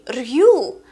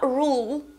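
First: The vowel has a y glide before the oo. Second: The vowel is a plain long oo without a y glide. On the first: The speaker calls it wrong. "Читается не рью" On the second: The speaker calls it right. "читается как длинное У, а не как Ю"

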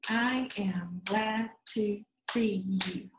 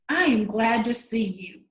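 First: It is said slowly, word by word. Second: It is said at normal speed, expressively.

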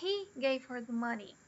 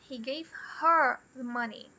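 First: The stress falls on the word he. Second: The stress falls on the word her. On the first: He, not the speaker, gave her the money. "I didn't give her the money" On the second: She got the money, not the speaker. "He didn't give the money to me"

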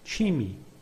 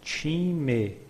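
First: The word is said fast, as in everyday speech. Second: The word is said slowly and carefully.

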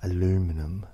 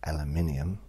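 First: It is said with an American pronunciation. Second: It is said with a British pronunciation. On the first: The speaker calls it wrong. "the mispronunciation" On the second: The speaker calls it right. "instead of"

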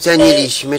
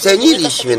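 First: The stress falls on the second-to-last syllable. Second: The stress falls on the third-to-last syllable. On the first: The speaker calls it wrong. "jak ona mówi ceniliśmy, to jest błąd" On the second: The speaker calls it right. "bo się mówi ceniliśmy... akcent na trzeciej sylabie od końca"

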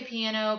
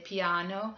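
First: It is said with a plain English accent. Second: It is said with an Italian accent. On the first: "but I say piano" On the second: "some people put that little Italian accent on it and say piano"

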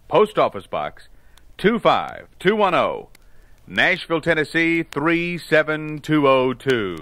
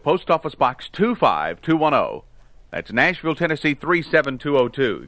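First: It is said slowly and deliberately. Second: It is said at a normal, quicker pace.

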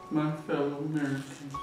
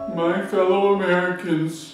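First: It is said at a quieter volume. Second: It is said at a louder volume.

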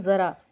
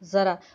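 Both takes have the same delivery.

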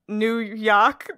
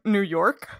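First: It is said in an imitated New York accent. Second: It is said in the speaker's own Canadian accent. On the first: "there are people who say it that way, but none of us can replicate it" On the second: "I live in Nova Scotia, so it'd probably be like New York"

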